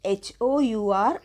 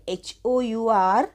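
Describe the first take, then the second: No difference in how they are said.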